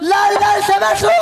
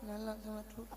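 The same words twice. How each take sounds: First: It is said loudly and forcefully. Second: It is said softly and quietly.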